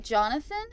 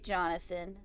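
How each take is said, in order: First: "Jonathan" louder and higher, rising at the end; questioning tune. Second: Said in the usual way. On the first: Acted. Player reading a shout option, "Jonathan" as a rising question. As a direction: read "Jonathan" as a raised question.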